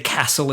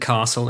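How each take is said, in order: First: Castle is said with a Melbourne vowel. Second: Castle is said with another Australian vowel. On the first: "Melbourne's got their little nuances. They say castle" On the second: "instead of castle"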